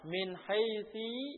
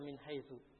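First: The second word ends in an i vowel. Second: The second word ends in a u vowel.

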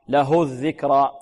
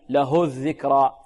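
The two takes are said the same way.

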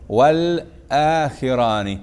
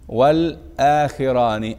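No difference in how they are said.

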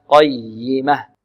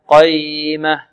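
First: The y sound is doubled and held. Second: The y sound is short and single. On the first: The speaker calls it right. "والياء هنا مشددة نبر قي" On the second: The speaker calls it wrong. "لا نقول قيمة قيمة، خطأ"

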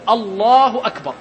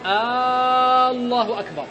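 First: The first vowel is said short, without lengthening. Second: The first vowel is drawn out long. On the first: It is a plain statement. The speaker calls it right. "من غير مد" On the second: It turns into a question. The speaker calls it wrong. "إن مد همز الله"

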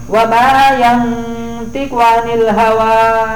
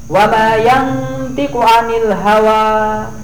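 No difference in how they are said.

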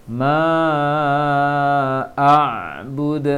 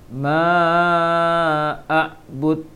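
No difference in how they are said.

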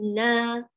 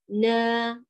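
First: The syllable is pushed out with forceful pressure. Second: The syllable flows out without forceful pressure. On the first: The speaker calls it wrong. "لا تنبري" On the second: The speaker calls it right. "نا ليس نا"

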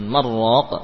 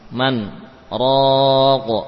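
First: The n merges into the r without a pause. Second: A short silent stop separates the two words. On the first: The speaker calls it wrong. "bukan marraq" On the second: The speaker calls it right. "kemudian sakt yakni berhenti diam sesaat"

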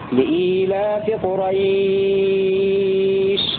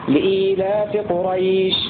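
First: The vowel before the final sh is held longest. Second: The vowel before the final sh is held briefly. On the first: "أو المد 6 حركات" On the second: "2 حركات"

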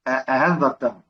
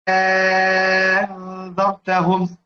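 First: The second hamza is softened, not fully pronounced. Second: The second hamza becomes a long drawn-out vowel. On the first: "طبعا هيبقى له تسهيل" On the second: "أبدل الهمزة الثانية حرف مد من جنس حركة ما قبلها"

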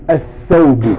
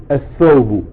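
No difference in how they are said.

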